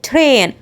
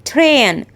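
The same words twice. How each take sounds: Both takes have the same delivery.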